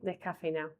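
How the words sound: The s is dropped and the ending sounds like au. "¿Cómo sería en extremeño?"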